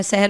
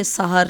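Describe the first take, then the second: First: سحر said as "seher", with an e in the first syllable; the slip "seher" for سحر; mistaken pronunciation. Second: سحر said as "sahar", short a on both syllables; سحر pronounced "sa-har", a vowels throughout; corrected pronunciation. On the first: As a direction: say سحر with short e vowels, "SEH-her". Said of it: "پہلے میں سحر بول گئی". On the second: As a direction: say سحر with zabar on seen and he, "SA-har". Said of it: "سین اور ہے پر زبر آئے گی". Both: Shown as a demonstration.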